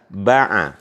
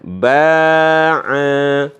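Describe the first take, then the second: First: Both vowels are short. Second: Both vowels are long. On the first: "tidak ada alifnya dua-duanya" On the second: "jadi dipanjangkan dua-duanya"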